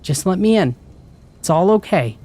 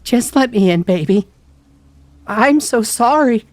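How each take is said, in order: First: High, soothing mom voice; gentler coaxing mother. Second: Loud, very high tearful plea; crying, voice broken. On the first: Mom at the door after rattling it, gently coaxing. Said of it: "gentler this time". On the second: Mom begging to be let in, crying. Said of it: "Her voice broke and she started to cry". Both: A narrator's reading.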